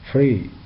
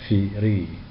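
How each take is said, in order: First: F and r are said together with no vowel. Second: A vowel is inserted between f and r. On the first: The speaker calls it right. "we have to pronounce them without a vowel in between" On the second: The speaker calls it wrong. "not firi"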